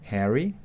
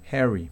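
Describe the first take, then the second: First: It is said with a British vowel. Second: It is said with an American short E vowel.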